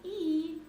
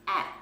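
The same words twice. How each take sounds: First: The vowel is said like its letter name. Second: The vowel is said as a short sound. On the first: "those are long sounds of those vowels" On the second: "we also have short ones"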